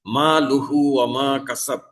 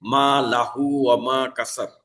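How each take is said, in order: First: লুহু with pesh, u vowel on lam; মা লুহু ওয়া মা কাসাব, lam read with u; correct recitation. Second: লাহু with a instead of u on lam; মা লাহু ওয়া মা কাসাব, vowel switched to a; deliberate wrong vowel. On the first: Teacher recites the correct vowel first, careful recitation. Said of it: "লামের উপরে আছে পেশ". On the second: Teacher shows students the wrong vowel, deliberately misread. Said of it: "এখানে আমি যদি জবর দিয়ে পড়ি". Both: Shown as a demonstration.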